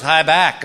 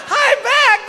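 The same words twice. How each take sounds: First: Said in the usual way. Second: Very high laughing repeat; drugged giggly squeal. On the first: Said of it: "And she goes". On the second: Retold or imitated. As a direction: squeal it back, doped and giggling. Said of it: "And I went".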